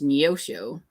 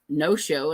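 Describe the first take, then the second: First: The name starts with a 'nee-oh' sound. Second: The name starts with a plain 'no' sound. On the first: The speaker calls it right. "there is an E in there" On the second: The speaker calls it wrong. "It's not just no show"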